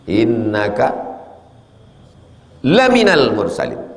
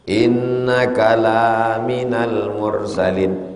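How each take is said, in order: First: The vowel of 'la' is short. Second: The vowel of 'la' is long. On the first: You are truly one of the messengers. "sungguh engkau salah seorang rasul" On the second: You are not a messenger. "Kalau dibaca panjang berubah jadi tidak jadinya"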